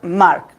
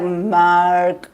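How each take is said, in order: First: The vowel is said the Spanish way. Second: The vowel is said the English way. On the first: The speaker calls it right. "It's like Mark, like A" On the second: The speaker calls it wrong. "It's not Mark"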